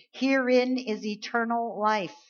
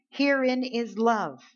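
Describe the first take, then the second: First: "Herein" stressed, slow, with eternal life swapped in; reread with new words. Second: Herein drawn out slow and high; slow stress on Herein. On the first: Preacher rereading the verse differently for the church, slow stress. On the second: Preacher reading the verse slowly to the church, stressing Herein. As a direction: lean on "Herein", slow and weighty. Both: Shown as a demonstration. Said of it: "Let's read that differently".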